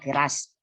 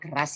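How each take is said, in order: First: The first vowel is a full, clear e. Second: The first vowel is a reduced schwa. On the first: The speaker's regional accent shows through. The speaker calls it wrong. "orang Minang ... E P P tidak ada dalam bahasa Minang, jadi kita lafalkan misalnya keras" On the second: This is the standard pronunciation. The speaker calls it right. "padahal keras ya"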